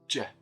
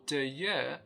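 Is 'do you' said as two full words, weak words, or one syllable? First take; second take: one syllable; two weak. First: The two words merge into one j syllable. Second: Two words are said with weak vowels. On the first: "it becomes j, ... So one syllable for two words" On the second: "or do you"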